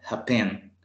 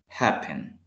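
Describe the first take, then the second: First: The stress is on the last syllable. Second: The stress is on the first syllable. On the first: The speaker calls it wrong. "si se lo ponemos al final diría como happen. Pero no" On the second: The speaker calls it right. "El acento se le escucha al inicio"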